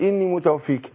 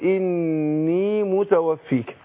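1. النون المضعّفة مشدّدة، والحركة الأخيرة قصيرة. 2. الحركة الأخيرة تأخذ طولها الطبيعي الكامل. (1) "بديها غنة حركين، وبعدين ما بيديش الياء المد الطبيعي بتاعها" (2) "لا أقول إني متوفيك"

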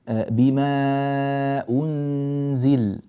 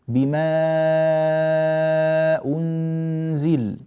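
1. يُمَدّ الحرف الذي قبل الهمزة مدًّا متوسطًا. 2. يُمَدّ الحرف الذي قبل الهمزة مدًّا طويلًا جدًّا. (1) "في التوسط إذا كنا نقرأ لقالون" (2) "بهذه الطريقة فنأتي بالإشباع"

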